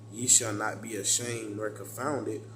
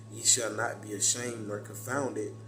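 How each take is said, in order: No difference in how they are said.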